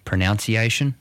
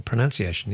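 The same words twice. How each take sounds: First: Pronunciation as pro-NOUNCE-iation; former mispronunciation. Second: Pronunciation as pro-NUN-ciation; correct pronunciation. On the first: Co-host admitting a mistake, pronunciation with a nounce syllable. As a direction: say pronunciation with noun inside. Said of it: "Pronunciation instead of pronunciation was one for me". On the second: Host correcting co-host, pronunciation with a nun syllable. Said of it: "Pronunciation instead of pronunciation". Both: Shown as a demonstration.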